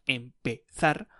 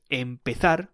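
First: Empezar drawn out slowly, syllable by syllable; slow down on empezar so learners hear each syllable; slow, careful empezar. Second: Said in the usual way. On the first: Shown as a demonstration. Teacher repeats empezar for learners, slowly and carefully. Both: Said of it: "that has three syllables".

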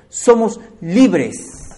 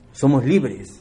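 First: Slow, drawn-out and louder; emphatic stretch. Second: Said in the usual way. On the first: Shown as a demonstration. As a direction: lean hard on each word. Preacher repeats key phrase.

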